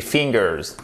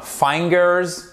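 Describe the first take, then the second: First: "fingers" with a short i, as in "fin"; correct short i. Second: "fingers" said wrongly as "fine-gers", slow; mispronounced i. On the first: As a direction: keep the first vowel of "fingers" short. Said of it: "comme un i court". (« fingers » corrigé, avec un i court) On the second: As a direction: turn the i of "fingers" into an eye sound. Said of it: "c'est pas fingers". (« fingers » mal prononcé, i dit « aï ») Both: Shown as a demonstration.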